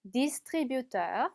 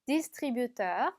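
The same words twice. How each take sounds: The two takes are said the same way.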